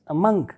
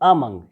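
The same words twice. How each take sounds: First: The stress is on the second syllable. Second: The stress is on the first syllable. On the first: The speaker calls it right. "the stress will be on the second syllable" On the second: The speaker calls it wrong. "not among"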